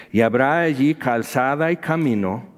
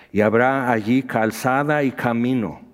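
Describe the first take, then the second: No difference in how they are said.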